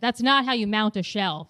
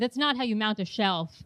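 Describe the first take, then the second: First: The tone is harsh and blunt. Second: The tone is soft and gentle. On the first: "my tone was way too harsh" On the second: "it softens me to the male species"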